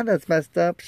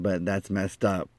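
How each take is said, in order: First: High, upset echo; high-pitched agreement. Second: Said in the usual way. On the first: Retold or imitated. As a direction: agree in a raised, higher voice. His echoed agreement with friend.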